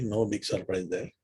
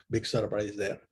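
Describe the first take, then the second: First: Said in the usual way. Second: Dry, understated sarcasm; sarcastic. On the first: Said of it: "I mean, I meant". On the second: Real, not acted. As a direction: say it sarcastically, as an offhand aside. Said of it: "I meant sarcastically".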